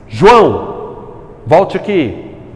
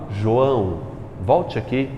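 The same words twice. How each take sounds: First: It is said loudly, with exclamatory intonation. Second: It is said calmly, without emphatic intonation.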